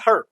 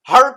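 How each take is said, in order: First: The vowel is short and reduced. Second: The vowel is long and full. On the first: "हर यहाँ पे छोटा कर दिया बड़े ए को" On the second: "बड़े ए को"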